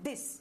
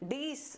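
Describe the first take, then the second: First: The vowel is clipped short. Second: The vowel is drawn out long. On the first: The speaker calls it right. "हमेशा short sound बोलेंगे" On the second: The speaker calls it wrong. "हम इसे वैसे नहीं बोलेंगे"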